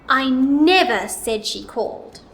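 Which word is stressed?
never. The word "never" is louder, longer and higher. It was definitely not said at all. "Now let's put it on the word never"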